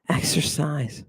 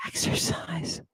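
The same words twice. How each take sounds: First: Said in the usual way. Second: "Exercise" whispered, unvoiced and soft; hushed whisper of "Exercise". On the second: Shown as a demonstration. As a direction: breathe the word "Exercise" as a secret.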